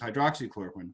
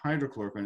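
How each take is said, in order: First: It is said with a ks sound after hydro. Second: It is said without a ks sound after hydro. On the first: The speaker calls it right. "it's hydroxychloroquine" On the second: The speaker calls it wrong. "when they mispronounce it and they call it hydrochloroquine"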